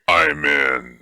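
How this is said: It is said in a disguised scary voice.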